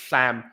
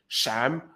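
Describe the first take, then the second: First: The first sound lets air out at the sides. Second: The first sound is like sh. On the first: "lateralized, meaning uh, the air isn't coming from the middle, it's coming from the sides" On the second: "palatization of S, which means it sounds like a sh more than an S"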